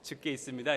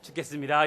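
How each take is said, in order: First: It is said as two separate words. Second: The syllables run together as one fused word. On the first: It is in the Lord's hands. The speaker calls it right. "이러셔야 됩니다" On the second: I am dying. The speaker calls it wrong. "이러면 안 되고"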